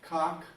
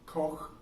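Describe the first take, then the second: First: The name ends with a plain, hard sound. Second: The name ends with a throaty, rasping sound.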